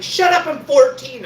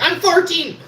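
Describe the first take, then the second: First: A much higher, louder, defensive yell; indignant shout. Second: A very high, loud, gleeful cry; triumphant shout. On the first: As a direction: snap it back as an indignant lie. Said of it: "And I'm like". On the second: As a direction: announce it like a victory. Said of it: "I was finally like". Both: Retold or imitated.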